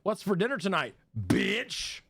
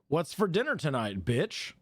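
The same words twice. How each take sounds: First: The last word is strongly emphasized. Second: The last word carries no special emphasis. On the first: The speaker calls it right. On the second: The speaker calls it wrong.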